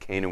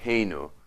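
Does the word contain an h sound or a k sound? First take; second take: k sound; h sound. First: The syllable begins with a k sound. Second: The syllable begins with an h sound. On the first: This is the form used when just talking about the name. "we pronounce it Kenu when we're just talking" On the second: This is the form used when saying a blessing. "We say Heinu"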